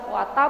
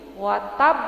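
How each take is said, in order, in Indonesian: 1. Bunyi b di akhir itu pendek dan tunggal. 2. Bunyi b di akhir itu ganda dan ditekan. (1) "kalau baknya spasi watab gitu aja" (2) "karena ini ada tasdid jadi watab"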